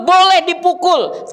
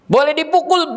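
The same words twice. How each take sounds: First: "boleh dipukul" stretched with a heavy, higher "boleh"; stress on boleh. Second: Said in the usual way. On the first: Shown as a demonstration. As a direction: lean on "boleh", then slowly "dipukul". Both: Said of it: "tapi tidak mencelakakan".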